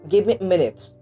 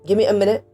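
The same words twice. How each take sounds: First: 'Give me' is said fully and separately. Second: 'Give me' blends into one reduced form.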